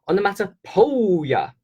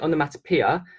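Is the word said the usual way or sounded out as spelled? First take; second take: spelled; usual. First: The ending is sounded out like poe in Joe. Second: It is said with its usual everyday pronunciation. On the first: This helps learners remember how the word is spelled. "I teach my kids to um to spell it like this" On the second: This is how the word is normally spoken. "I know we pronounce it onomatopoeia"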